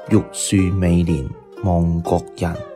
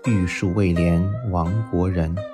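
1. 这是用粤语的发音来读。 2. 这是用南昌话的发音来读。

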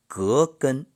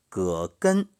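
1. 第一个音节读第二声。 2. 第一个音节读第三声。

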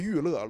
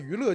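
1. 第一个音节是降调。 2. 第一个音节是升调。

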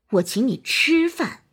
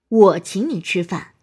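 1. 重音在“吃”上。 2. 重音在“我”上。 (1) "突出吃" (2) "突出我"

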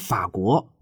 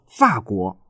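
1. 这是大陆普通话的读法。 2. 这是台湾国语的读法。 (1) "我们说" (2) "他们说"

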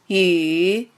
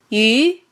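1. 音高先降到低处，再上升。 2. 音高从中到高上升。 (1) "三声拐弯" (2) "二声扬"

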